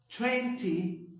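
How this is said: The t sounds are clearly pronounced. "britânico"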